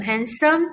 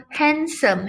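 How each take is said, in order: First: Said in the usual way. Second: "handsome" said slowly and a bit higher, syllables clear; slow, deliberate "handsome"; careful example word. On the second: Shown as a demonstration. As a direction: draw out "handsome" to count its syllables. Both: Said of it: "you have to use".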